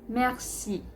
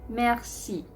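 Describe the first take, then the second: Both takes have the same delivery.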